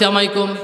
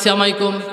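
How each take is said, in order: First: The greeting is clipped, with its opening sounds dropped. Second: The same.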